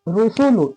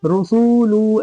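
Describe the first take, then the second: First: All three syllables have equal length. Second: The last two syllables are stretched longer. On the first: The speaker calls it right. "एक बराबर" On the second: The speaker calls it wrong. "सीन और लाम को खींच रहे, ऐसे नहीं"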